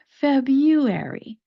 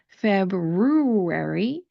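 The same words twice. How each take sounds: First: The first R sound is dropped entirely. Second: The first R sound is clearly pronounced. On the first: The speaker calls it right. "the first R does not get pronounced" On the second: The speaker calls it wrong. "Instead of pronouncing it February, that sounds very odd to me"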